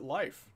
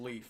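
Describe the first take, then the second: First: The name rhymes with 'life'. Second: The name rhymes with 'leaf'. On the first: Someone else said it this way. "I heard somebody pronounce it Life" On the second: This is how the speaker thought it was said. "I thought it was Leaf"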